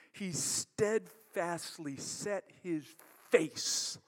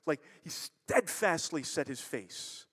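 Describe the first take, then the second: First: Slow, deliberate. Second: Said in the usual way. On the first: Shown as a demonstration.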